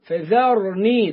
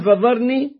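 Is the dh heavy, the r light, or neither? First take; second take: neither; dh heavy. First: The dh is light and the r is heavy. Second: The dh is made heavy, like an emphatic sound. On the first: The speaker calls it right. "رقق الفاء والذال وبعدين نفخم الراء" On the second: The speaker calls it wrong. "قلبنا الذال ضاء أو فخمناها"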